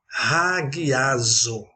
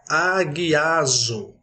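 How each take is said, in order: First: The word begins with a breathy R-like sound. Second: The word begins directly with a vowel sound. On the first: The speaker calls it right. "ela se torna raguiazo, pois recebe um H" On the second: The speaker calls it wrong. "sem a aspiração áspera, a palavra que está na tela seria aguiazo"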